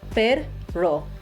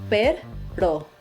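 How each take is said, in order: No difference in how they are said.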